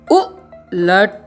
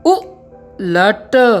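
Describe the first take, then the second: First: The word is said smoothly as one unit. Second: A pause splits the first sound from the rest.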